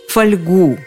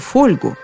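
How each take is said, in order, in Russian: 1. Ударение на втором слоге. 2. Ударение на первом слоге.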